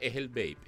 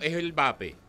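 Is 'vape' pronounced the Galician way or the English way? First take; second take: English; Galician. First: Vape is pronounced as in English. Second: Vape is pronounced as in Galician.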